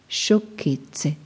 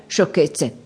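First: Softer, drawn-out dismissal; slow, understated verbal tic; quoted catchword. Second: Quick, offhand dismissal; lightly acted brush-off; dismissive. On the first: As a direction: stretch the word out as a habitual brush-off. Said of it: "Era il suo modo di intercalare". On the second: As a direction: brush it aside in one short word. Character's dismissive catchword in dialogue. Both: A narrator's reading.

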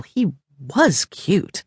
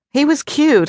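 First: Slow, higher, drawn-out stress on "was"; grudging admission, "was" stretched and set apart. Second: Said in the usual way. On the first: A narrator's reading. Same words, grudging emphatic admission.

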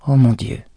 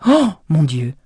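First: Exclaim again. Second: Louder alarmed exclamation; shocked cry at the sight of the fire; stunned, loud oh my God. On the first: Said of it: "s'exclama-t-il de nouveau". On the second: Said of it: "s'écria-t-il à voix haute". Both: Acted.

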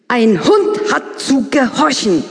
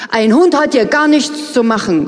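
First: Slow, higher, emphatic retort; indignant. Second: Stung outcry. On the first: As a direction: lay down the rule, upset. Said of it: "entgegnet sie aufgebracht". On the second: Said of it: "rufe ich empfindlich". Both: Acted.

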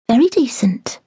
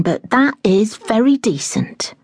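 First: "Very decent" breathed in a whisper; a whispered, doubtful echo of "Very decent". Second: Said in the usual way. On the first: Acted. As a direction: murmur "Very decent" under the breath, voiceless. Echoed in a whisper.

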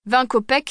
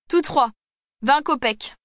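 First: Said in the usual way. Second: A higher, lightly put-on hunchback voice; hunchback bargaining. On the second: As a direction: haggle like a cocky little hunchback.

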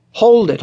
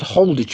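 First: Louder, higher hold it; urgent halt. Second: Said in the usual way. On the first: Acted. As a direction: stop him at the door. Biggs stops him leaving.

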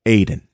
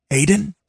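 First: Said in the usual way. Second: High, worried call into the dark. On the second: Acted. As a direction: call his name across the water. Searching for Aiden at sea.

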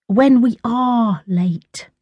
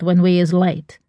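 First: Sulky, slow, higher "When we are late"; stretched, higher "are", sulkily correcting; sulky correction. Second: Said in the usual way. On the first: A narrator's reading. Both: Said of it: "Tash corrected her sulkily".

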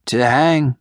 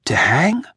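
First: Said in the usual way. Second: Hushed, breathless whisper of shock. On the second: A narrator's reading. Voiceless whispered question. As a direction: cobbler whispers in dread about the hanging. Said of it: "he whispered".

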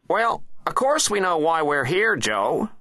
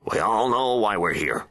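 First: High, loud presidential comeback; impatient president. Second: Higher, measured official's statement; solemn Attorney General. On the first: President replying to his Attorney General, high and impatient. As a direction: snap back in a high character voice. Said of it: "replied the president". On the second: Attorney General taking control of the meeting, firm and measured. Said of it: "he added". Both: A narrator's reading.

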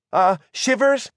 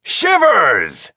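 First: High-pitched, questioning call of his name; hesitant warning. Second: Long, raised, hearty call of the name; gruff friendly bellow. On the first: Margot tries to warn Shivers, hesitant warning. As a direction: raise it tentatively, as a question. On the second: Bob greets Shivers from the ship, bellowing gruffly. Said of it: "bellowed a gruff but friendly voice". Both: A narrator's reading.

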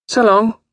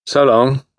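First: Put-on very high, airy girlish goodbye; high-pitched breezy young lady; bright farewell. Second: Glum echo of a goodbye; raised but restrained male farewell; young man's reply. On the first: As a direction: trill a carefree goodbye. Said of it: "said Grace brightly". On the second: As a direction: return the goodbye without any gaiety. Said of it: "said James". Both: A narrator's reading.

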